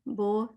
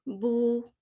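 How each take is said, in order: First: The vowel is an open 'oh' sound. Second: The vowel is a rounded 'oo' sound. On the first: The speaker calls it wrong. "तो ये रॉन्ग है।" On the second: The speaker calls it right. "बिल्कुल गोल। ऊ ऊ साउंड होनी चाहिए"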